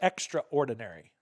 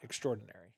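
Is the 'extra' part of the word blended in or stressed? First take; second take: Stressed; Blended. First: The 'extra' part is stressed and set apart. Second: The 'extra' part is blended into the word. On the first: The ministers are additional to the ordinary ones. The speaker calls it right. "what we're emphasizing the extra" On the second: The ministers are remarkable or exceptional. The speaker calls it wrong. "not extraordinary"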